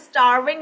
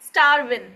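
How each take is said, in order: First: The final g sound is pronounced. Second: The final g sound is dropped.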